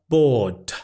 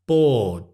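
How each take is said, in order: First: The final D is released with a burst. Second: The final D is held without a burst. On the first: The speaker calls it wrong. "the D at the end is not plosive. It's not bored" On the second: The speaker calls it right. "your tongue is touching the top of your mouth, but it's not going t"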